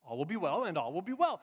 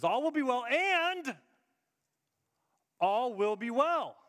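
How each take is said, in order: First: Said in the usual way. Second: Slow, loud, lingering phrase; emphatic quote. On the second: Shown as a demonstration. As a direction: lean on each word slowly. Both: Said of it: "She says".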